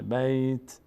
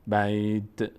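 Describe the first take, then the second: First: بیت ending cleanly on a vowelless t; "bayt" for بیت, nothing voiced after t; correct stopped t. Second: بیت with a voiced little vowel after the t; faulty "bayt-eh" for بیت; wrong released ending. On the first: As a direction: close بیت with only the t sound. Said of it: "فقط صدای ت ظاهر بشه". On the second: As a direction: let the end of بیت bounce into a schwa. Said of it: "اینجوری نشه". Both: Shown as a demonstration.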